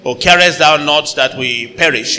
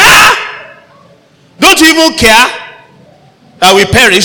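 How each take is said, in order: First: Said in the usual way. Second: High, loud frightened cry; terrified disciples shouting over the storm; panicked shout. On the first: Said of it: "it sounds nice, it's okay, but that's not how they sounded". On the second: Shown as a demonstration. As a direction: yell it like men sure they will drown. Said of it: "but that's not how they sounded".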